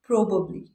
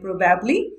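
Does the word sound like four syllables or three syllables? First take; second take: three; four. First: The middle syllable is dropped. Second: Every syllable is said in full. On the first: The speaker calls it right. "ये है प्रोबली" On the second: The speaker calls it wrong. "बिल्कुल नहीं, ये प्रोबेबली नहीं है"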